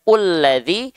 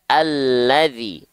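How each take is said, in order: First: The word begins with a u vowel. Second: The word begins with an a vowel. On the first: The speaker calls it wrong. "tak mungkin kita baca ulladzi" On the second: The speaker calls it right. "tapi kita baca alladzi. A dengan vokal A"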